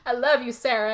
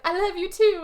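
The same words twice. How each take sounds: First: Said in the usual way. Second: High-pitched, drawn-up reply; mock tearful farewell. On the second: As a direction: imitate her emotional goodbye in a high voice. Retold woman answering, tearful farewell.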